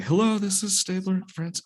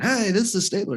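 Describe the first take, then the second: First: High, bright announcer hello; radio DJ voice. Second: High, loud DJ greeting; radio DJ voice. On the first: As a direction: overdo the radio host intro. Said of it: "Shit, that doesn't sound good". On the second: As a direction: pump it up like a radio host. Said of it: "you sound too much like a radio D J". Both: Retold or imitated.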